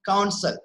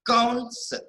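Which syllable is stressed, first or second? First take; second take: second; first. First: The stress is on the second syllable. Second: The stress is on the first syllable. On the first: The speaker calls it right. "we pronounce it as counsel. Ka, ka is cutting" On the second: The speaker calls it wrong. "We don't pronounce it counsel"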